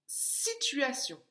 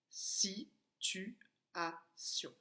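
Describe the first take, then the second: First: Said in the usual way. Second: "Situation" in four slow, separate beats, softer; "Situation" very slowly broken up, quieter; split into syllables. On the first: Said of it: "la première syllabe de". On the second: Shown as a demonstration. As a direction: spell out "Situation" syllable by syllable with pauses. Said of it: "On avait frappé les syllabes".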